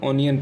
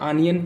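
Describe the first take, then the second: First: The first vowel is a rounded 'aw'. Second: The first vowel is an open unrounded 'ah'. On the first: "कुछ लोग ऑनियन पढ़ते हैं" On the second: "कुछ लोग इसको आनियन पढ़ते हैं"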